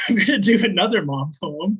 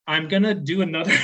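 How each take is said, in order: First: Light laugh through I'm gonna do another; chuckling at herself, a bit brighter. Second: Said in the usual way. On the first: Real, not acted. Poet joking to the audience about her mom poems, laughing.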